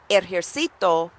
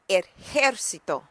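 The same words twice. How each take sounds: First: The stress is on the syllable ci. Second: The stress is on the syllable jer.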